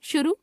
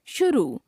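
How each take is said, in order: First: शुरू ending on short "u"; mispronounced final vowel. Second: Said in the usual way. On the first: Shown as a demonstration. Teacher showing a common error, शुरू with short final u. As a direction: cut the end of शुरू short. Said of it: "अशुद्ध". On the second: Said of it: "शुद्ध".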